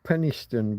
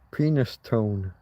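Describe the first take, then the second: First: The name is said the local way. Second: The name is said as spelled, with 'penis'. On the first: "so we pronounce it Penistone" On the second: "you can't help noticing the penis in the middle of the word"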